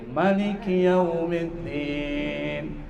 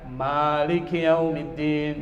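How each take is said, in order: First: The first vowel of Maliki is kept short. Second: The first vowel of Maliki is drawn out long. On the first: This is the reading used in the second prayer cycle. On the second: This is the reading used in the first prayer cycle.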